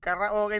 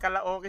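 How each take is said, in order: First: The middle consonant is an R sound. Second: The middle consonant is an L sound. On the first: This is how Filipinos say it. "karaoke natin" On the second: This is how the locals say it. "naging karaoke sa kanila. Nawala yung R, naging L"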